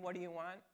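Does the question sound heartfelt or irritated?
irritated. The question sounds impatient and irritated. The asker is annoyed at being followed. "there can be a kind of irritating"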